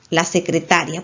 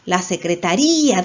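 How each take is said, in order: First: The stress falls on the ta syllable. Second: The stress falls on the ri syllable. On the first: "La fuerza está en ta" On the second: "En la sílaba rí"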